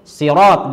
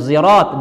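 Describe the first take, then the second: First: It begins with an emphatic, heavy s sound. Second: It begins with a voiced z sound. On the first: "sirat dengan shad" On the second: "zirat dengan zai"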